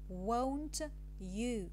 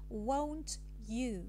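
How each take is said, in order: Both takes have the same delivery.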